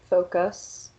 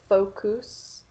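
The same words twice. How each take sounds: First: The unstressed vowel is a reduced schwa. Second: The unstressed vowel is a full, pure vowel. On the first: The speaker calls it right. "the schwa sound" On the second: The speaker calls it wrong. "the pure vowel sounds"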